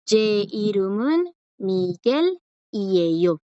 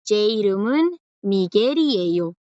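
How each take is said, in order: First: "Ye irumun Miguel y ello" slowly, a break after "Miguel"; with a pause. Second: "Miguel y ello" joined without a pause, L becoming R; run together. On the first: Teacher shows students the sentence with a pause, "Miguel" set apart. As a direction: separate "Miguel" from "y ello", keeping its final L. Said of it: "puedo pronunciar con una pausa". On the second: Teacher shows students the second way, "Miguel y ello" run together. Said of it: "O puedo decirlo seguido". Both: Shown as a demonstration.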